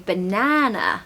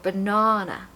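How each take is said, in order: First: It is said with an American accent. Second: It is said with a British accent. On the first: "in American they say banana" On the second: "if you want a British accent, you have to say banana"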